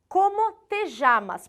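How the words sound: It is said with a Uruguayan accent.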